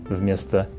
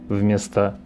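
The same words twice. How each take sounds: No difference in how they are said.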